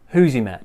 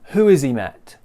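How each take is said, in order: First: 'Who has' is merged into one syllable. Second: 'Who has' is said as two full syllables. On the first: "Just one sound" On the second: "So there's two ways"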